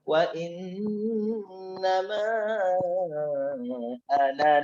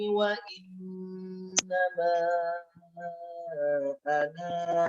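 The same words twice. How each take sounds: First: The final vowel of 'ana' is kept short. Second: The final vowel of 'ana' is held long. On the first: The reciter continues without stopping. "Tapi kalau lanjut" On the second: The reciter stops after this word. "Jadi baca panjang. Kalau berhenti"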